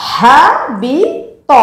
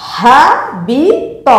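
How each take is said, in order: The two takes are said the same way.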